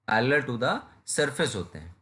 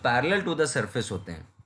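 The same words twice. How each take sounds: First: Slow, each word spaced out for notes; slow dictation. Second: Said in the usual way. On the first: Shown as a demonstration. Teacher repeating the definition slowly so students copy it. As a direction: say it slowly so students can write it down. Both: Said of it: "teacher repeats the definition for notes".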